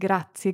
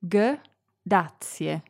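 First: The word is said quickly and run together. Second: The word is said slowly and separately. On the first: "Then speed things up and join them together" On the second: "Start slowly"

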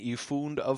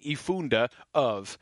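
First: The final e merges into the following vowel. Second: The final e is sounded as a separate syllable. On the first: The speaker calls it right. "you would just sort of do those together" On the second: The speaker calls it wrong. "You wouldn't say bin I funde of"

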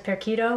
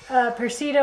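First: The middle consonant is a hard K sound. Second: The middle consonant is a soft sound.

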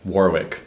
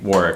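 First: It is said in a standard, non-local accent. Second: It is said in a local Rhode Island accent.

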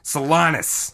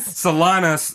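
First: The last syllable has an 'i' vowel. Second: The last syllable has an 'a' vowel. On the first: This is a mispronunciation of the name. The speaker calls it wrong. "they said Solanas. With an eye" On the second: This is the name's real pronunciation. The speaker calls it right. "Instead of saying Solanas"

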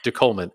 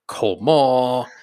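First: The word has a plain, unexaggerated pronunciation. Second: The word has an exaggerated, overly French pronunciation. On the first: The speaker calls it right. "And then the French guy says" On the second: The speaker calls it wrong. "like it had all these crazy pronunciations"

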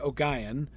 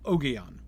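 First: The stress falls on the second syllable. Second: The stress falls on the first syllable. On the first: "Or you could do with a hard G" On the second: "Or you could do with a hard G and stressing the first syllable"

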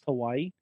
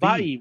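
First: The middle consonant is a w sound. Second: The middle consonant is a v sound. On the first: The speaker calls it wrong. "it's not actually pronounced Hawaii" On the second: The speaker calls it right. "Hawaii with a V"

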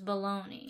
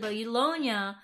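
First: It is said with an anglicized American pronunciation. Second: It is said with an Italian-style pronunciation. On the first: This is the form adapted into American English. "we anglicize all the Italian words" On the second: This is the original form from the Italian city. "eventually Bologna becomes bologna"

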